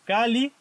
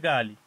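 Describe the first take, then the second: First: The word begins with a k sound. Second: The word begins with a g sound. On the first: "el sonido K" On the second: "cambia a ga"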